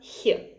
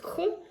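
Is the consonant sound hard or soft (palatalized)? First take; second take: soft; hard. First: The consonant is soft, with palatalization. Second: The consonant is hard, without palatalization. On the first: "soft one" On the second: "the hard consonant"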